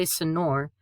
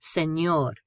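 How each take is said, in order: First: "señor" mispronounced with a plain n, suh-NOR; English-style n in "señor"; wrong plain N. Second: "señor" with ñ as ny, sen-YOR; canyon-style ny in "señor"; N-Y sound. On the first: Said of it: "we don't say señor". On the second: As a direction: say "señor" with a clear ny glide. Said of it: "pronounced similar to N Y". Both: Shown as a demonstration.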